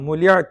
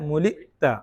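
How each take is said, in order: First: A glide sound comes in the middle. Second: A glottal stop comes in the middle. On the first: The speaker calls it wrong. "മുലിയത്ത അല്ല" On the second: The speaker calls it right. "ഹംസയാണ്"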